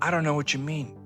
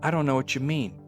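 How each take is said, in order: Both takes have the same delivery.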